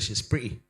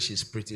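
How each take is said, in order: First: The T in pretty is dropped and silent. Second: The T in pretty is clearly pronounced.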